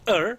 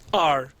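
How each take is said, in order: First: The word is reduced, with a weak vowel. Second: The word is said fully, with a clear vowel.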